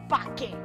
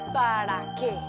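First: The first word is shortened to one syllable. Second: The first word is said in full, two syllables. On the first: The speaker calls it wrong. "No se dice pa' qué" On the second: The speaker calls it right. "Se dice para qué"

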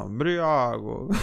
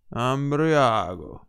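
First: The ending of the word carries strong emphasis. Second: The ending of the word carries no special emphasis. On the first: The speaker calls it wrong. "la cadenza c'era sopra ago" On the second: The speaker calls it right. "mo lo faccio io, così una volta per tutte lo chiustiamo"

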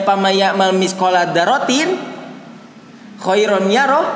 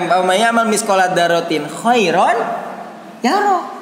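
First: There is a pause after dzarratin. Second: It flows on without a pause after dzarratin.

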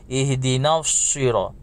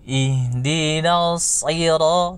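First: The s sound is thin and light. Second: The s sound is thick, tongue root raised. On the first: The speaker calls it wrong. "bukan ihdinal syiro" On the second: The speaker calls it right. "hanya saja ditebalkan"

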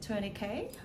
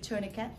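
First: It is pronounced the Australian way. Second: It is pronounced the American way. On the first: "here in Australia, they pronounce it tourniquet" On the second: "In America, probably tourniquet"

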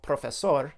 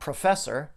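First: The word is said with a Spanish accent. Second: The word is said with an English accent. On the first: "in my best Spanish accent" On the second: "If he says it in English"

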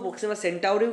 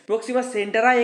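First: The second word ends with an 'uri' sound. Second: The second word ends with a 'rai' sound. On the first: "Proxima সেন্টাউরিও কিন্তু উচ্চারণ হয়" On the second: "Proxima সেন্টারাই এখানে দিয়েছে"

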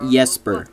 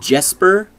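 First: The name is pronounced the Norwegian way. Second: The name is pronounced the plain English way. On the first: This is how the speaker's name was wrongly pronounced. The speaker calls it wrong. "Not Jesper. I'm not Norwegian" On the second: This is how the speaker's name is really pronounced. The speaker calls it right. "It's Jesper?"

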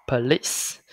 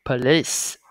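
Both takes have the same delivery.

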